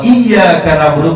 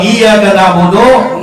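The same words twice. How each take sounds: First: The 'y' sound is held long and doubled. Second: The 'y' sound is short and single. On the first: To you, O God, we worship. The speaker calls it right. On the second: To the sunlight we worship. The speaker calls it wrong.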